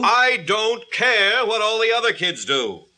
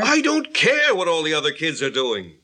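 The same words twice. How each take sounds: First: High-pitched, exasperated retort; heated parental refusal; angry outburst. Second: Irritated retort. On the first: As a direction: lose patience and raise the voice. Father's escalating retort in quarrel. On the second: Father's first retort in quarrel. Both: Acted.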